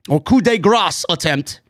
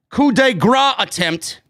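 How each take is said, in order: First: Coup de grace said as "coo de grass", final s sounded; corrected French term. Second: Coup de grace said as "coo de gra", no final s; first try at a French term. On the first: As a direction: coup de grace with grace rhymed with "glass". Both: Shown as a demonstration.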